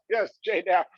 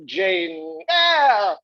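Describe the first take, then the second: First: Said in the usual way. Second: Drawn-out, much higher "Jane Eyre" savoured slowly; grand title announcement. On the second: Acted. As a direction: stretch out "Jane Eyre" like a grand unveiling, pitched high and slow.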